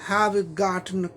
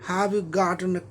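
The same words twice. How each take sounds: The two takes are said the same way.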